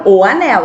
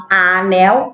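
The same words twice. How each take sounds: First: Said in the usual way. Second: "a anel" with the wrong article "a" stressed. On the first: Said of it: "eu falo o anel". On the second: Shown as a demonstration. Teacher showing pupils the wrong article, stressed "a" in "a anel". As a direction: say "a anel" as the mistake, leaning on "a". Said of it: "a anel tá errado".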